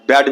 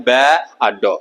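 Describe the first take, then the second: First: Said in the usual way. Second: बैड broken into "बै ... आ डो"; wrongly split word. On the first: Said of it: "एक ही बार में बोल देते हैं". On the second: Shown as a demonstration. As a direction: say बै, pause, then आ डो. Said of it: "ऐसा नहीं बोलते हैं".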